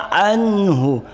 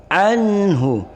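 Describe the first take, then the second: The two takes are said the same way.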